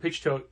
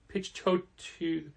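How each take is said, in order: First: The surname is said with fewer syllables. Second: The surname is said with three syllables. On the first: The speaker calls it wrong. "we were saying Pornsak Pichtot" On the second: The speaker calls it right. "but it's three syllables"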